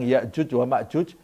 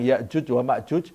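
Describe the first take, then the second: First: The middle consonants are j sounds. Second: The middle consonants are j sounds.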